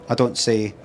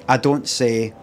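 No difference in how they are said.

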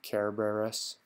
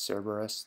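First: The word begins with a hard K sound. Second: The word begins with a soft S sound. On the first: This is how the ancient Romans said it. "the Latin Romans pronounced it with a hard C" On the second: This is how it is usually said today. "we usually call it"

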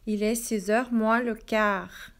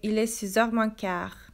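First: The word le is pronounced before quart. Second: The word le is dropped before quart.

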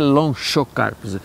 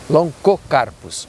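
First: The ch is not said as a k. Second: The ch is said as a hard k. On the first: The speaker calls it wrong. "Então não é Loncocarpus" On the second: The speaker calls it right. "se pronuncia co"

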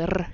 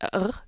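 First: The R is rolled with the tongue tip. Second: The R is made in the back of the throat. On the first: This is how a Swiss speaker sounds. "the Swiss accent where we always do the R kind of sound" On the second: This is how a German speaker sounds in English. "you can hear the R in the back of the throat"

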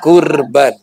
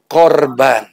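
First: The first vowel is an 'u' sound. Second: The first vowel is an 'o' sound. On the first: It means a sacrifice that brings one closer. The speaker calls it right. "harus menggunakan huruf qaf" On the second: It means a victim, with a negative sense. The speaker calls it wrong. "Bukan korban"

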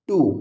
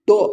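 First: The vowel sounds like 'oo'. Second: The vowel sounds like 'oh'. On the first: The speaker calls it right. "ಟು ಟು" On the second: The speaker calls it wrong. "ಇದು ಟೋ ಅಲ್ಲ"

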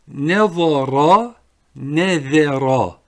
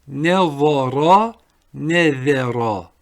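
No difference in how they are said.

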